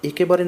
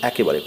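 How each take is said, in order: First: The first vowel is a close e sound. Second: The first vowel is an open ae sound. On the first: The speaker calls it wrong. "না পড়ে" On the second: The speaker calls it right. "পড়ব"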